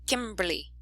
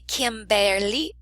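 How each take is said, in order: First: The sounds run together, dropping a syllable. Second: Every syllable and sound is pronounced fully. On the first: The speaker calls it right. "we say" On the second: The speaker calls it wrong. "We do not say"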